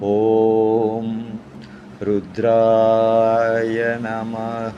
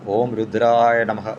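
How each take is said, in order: First: The phrase is said at a slow pace. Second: The phrase is said at a fast pace. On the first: The speaker calls it right. "നിങ്ങൾ മെല്ലെ പറയണം ... ഈ ഒരു ടോണിൽ" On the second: The speaker calls it wrong. "ഞാനിത് വേഗത്തിൽ പറഞ്ഞുവെങ്കിൽ"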